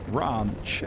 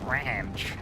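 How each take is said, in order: First: A British accent, with a posh-sounding vowel. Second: An American accent, with an 'eh'-like vowel. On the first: "people over here will call it like ranch, and it just sounds wrong" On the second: "American people call it ranch, ... more of like that eh sound in the middle"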